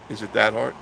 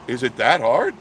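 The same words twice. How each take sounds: First: Said in the usual way. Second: "hard" pushed loud and sharply up; rising intonation. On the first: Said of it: "it's the way you say it". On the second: Shown as a demonstration. Host showing the way you say it, "hard" rising loudly. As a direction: say "Is it that hard?" louder, swinging up on "hard".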